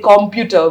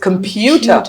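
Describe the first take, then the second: First: The stress is on the syllable com. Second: The stress is on the syllable pu. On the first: The speaker calls it wrong. "when people say computer, we say it's wrong" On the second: The speaker calls it right. "com is not the stressed syllable, it's pu"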